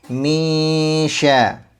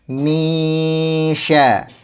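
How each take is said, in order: The two takes are said the same way.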